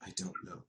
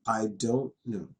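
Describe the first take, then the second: First: I don't know breathed out as a whisper. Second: Said in the usual way. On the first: Shown as a demonstration. Teacher translating the phrase for students, whispered. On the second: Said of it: "it means".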